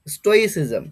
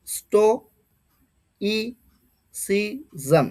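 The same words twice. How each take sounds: First: Said in the usual way. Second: স্টোইসিজম very slowly split as sto, i, si, zam; each syllable of স্টোইসিজম on its own; syllable-by-syllable pronunciation. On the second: Shown as a demonstration. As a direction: sound out স্টোইসিজম with long gaps. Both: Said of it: "পরের প্রনাউন্সিয়েশনটা দেখো".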